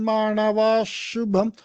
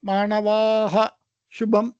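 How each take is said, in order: First: The final sound blends into an 'sh' sound. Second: The final sound is a separate 'ha' sound. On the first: The speaker calls it right. "இந்த விசர்காவை ஷு அப்படி சொல்லணும்" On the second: The speaker calls it wrong. "அப்படி சொல்லக்கூடாது"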